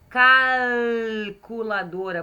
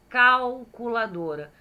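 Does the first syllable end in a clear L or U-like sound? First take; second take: clear L; U-like. First: It is slow, with a clear L sound. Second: The first syllable ends in a U-like sound. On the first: "É L, ó. ... Por isso que eu falei bem devagar" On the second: "O cal acaba saindo U"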